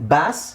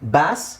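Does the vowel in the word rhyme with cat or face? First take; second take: cat; cat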